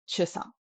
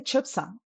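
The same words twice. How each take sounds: First: Chusang said smoothly with no P; silent P in Chusang. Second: Chupsang with a clear P before the S; sounded P in Chupsang. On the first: Teacher gives what we say, Chusang without a P. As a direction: go straight from Chu into sang in Chusang. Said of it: "So we say Chusang". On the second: Teacher asks why not this, Chupsang with its P sounded. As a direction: close the first syllable of Chupsang on P. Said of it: "Why don't we say Chupsang". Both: Shown as a demonstration.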